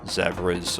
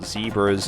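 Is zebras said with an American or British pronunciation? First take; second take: British; American. First: Zebras is said with a British pronunciation. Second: Zebras is said with an American pronunciation.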